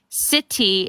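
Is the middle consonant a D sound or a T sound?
T. The middle consonant is a crisp T sound. "instead of saying uh with a T"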